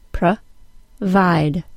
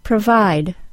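First: The word is split into separate syllables. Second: The word is said smoothly as one unit. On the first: "then by syllable" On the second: "in the same pattern of the whole word"

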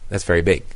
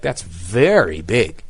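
First: The stress falls on the word 'big'. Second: The stress falls on the word 'very'. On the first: The speaker is simply describing the size. "But most of the time we say" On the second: The speaker is stressing how big it is. "Unless we're trying to emphasize that"

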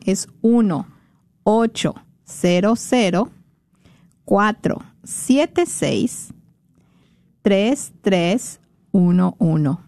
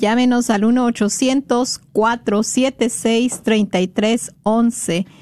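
First: It is said very slowly. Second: It is said at a normal pace.

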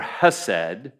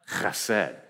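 First: It begins with a soft, plain h sound. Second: It begins with a rough sound from the throat. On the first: The speaker calls it wrong. "you'd be tempted to say Khesed or Hesed" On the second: The speaker calls it right. "like you have a hair stuck in the back of your throat"

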